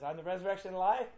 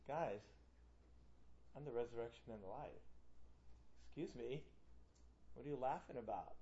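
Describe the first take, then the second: First: Quick, rising, mock-grand announcement; joking claim. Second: Low, soft, mock-serious insistence; deadpan earnest. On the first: Preacher showing the class a laughable way Jesus could say it, joking. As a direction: toss the claim out fast, lifting at the end. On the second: Preacher as a claimant facing a laughing crowd, deadpan earnest. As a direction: say it quietly and low, as if hurt by laughter. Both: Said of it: "depending on how he said it".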